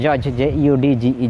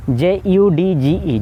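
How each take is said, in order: First: "ᱡᱚᱡᱽ" then letters spelled slowly and lower; spelled again, lower. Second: Letters spelled out very slowly and deliberately. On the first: Teacher repeats the spelling of judge, lower. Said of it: "ᱡᱚ ᱫᱚ ᱪᱮᱫ ᱪᱮᱠᱟ ᱯᱟᱲᱦᱟᱣᱮᱜᱼᱟ". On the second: Teacher spells judge slowly for the class. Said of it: "ᱚᱱᱟ ᱨᱮᱭᱟᱜ ᱩᱪᱪᱟᱨᱚᱱ ᱫᱚ ᱵᱟᱭ ᱦᱤᱡᱩᱜ ᱠᱟᱱᱟ". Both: Shown as a demonstration.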